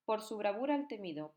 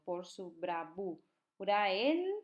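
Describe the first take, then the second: First: Said in the usual way. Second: "bravura el" drawn out very slowly with "el" rising; slow syllable reading. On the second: Shown as a demonstration. Teacher showing students the synalepha slowly. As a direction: stretch out "Por su bravura el" to show the vowels joining. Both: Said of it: "juntas porque termina en vocal y empieza en vocal".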